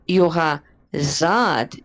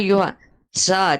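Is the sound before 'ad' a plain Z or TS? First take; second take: Z; TS. First: The consonant before 'ad' is a plain z sound. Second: The consonant before 'ad' is a ts sound. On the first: The speaker calls it wrong. "So you're not" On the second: The speaker calls it right. "You are"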